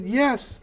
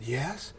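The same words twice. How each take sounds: First: High-pitched little reply; dazed yes retold. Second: Very soft, awed reply; hushed yes. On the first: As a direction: answer up high, comically absent. Retold answer, second time, higher. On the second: Retold or imitated. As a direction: answer quietly, as if absorbed. Retold awed answer on phone.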